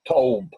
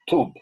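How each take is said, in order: First: The vowel sounds like a plain 'o'. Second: The vowel sounds like 'oo'.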